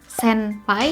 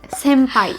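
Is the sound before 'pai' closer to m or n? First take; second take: n; m. First: The sound before pai is not an m. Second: The sound before pai is an m. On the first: The speaker calls it wrong. "Jadi bukan senpai" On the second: The speaker calls it right. "lebih dekat ke M"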